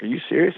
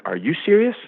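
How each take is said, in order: First: Retold disbelief. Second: "you" punched in mock challenge; question thrown back. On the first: Retold: laughing man questions the speaker. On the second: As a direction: stress on YOU, pitched high.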